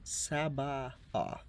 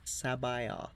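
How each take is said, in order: First: The name is said slowly, vowels kept separate. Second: The name is said quickly, vowels run together. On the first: "it looks to be Sabaoth" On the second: "when you pronounce it quickly, it does sound like"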